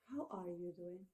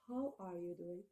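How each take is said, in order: First: It sounds soft and sympathetic. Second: The same.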